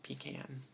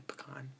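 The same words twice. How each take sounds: First: Pecan said pee-can. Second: Pecan said puh-cahn. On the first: Speaker showing how others say pecan. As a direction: stress pecan on the first syllable, pee-can. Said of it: "Some people actually say pecan". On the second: Speaker showing her own pecan. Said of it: "I say pecan". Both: Shown as a demonstration.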